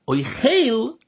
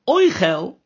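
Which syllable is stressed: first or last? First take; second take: last; first. First: The stress is on the last syllable. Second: The stress is on the first syllable. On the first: It is a verb meaning eating. "with this tzere under the chof and the stress under the chof" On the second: It is a noun meaning food. "with a segel under the chof and the stress on the aleph at the beginning of the word"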